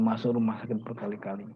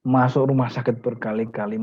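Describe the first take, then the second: First: Masuk rumah sakit berkali-kali repeated much softer and lower; a quiet echo of the line, sinking away. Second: Said in the usual way. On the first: Shown as a demonstration. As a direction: let the repeat fall to a hush.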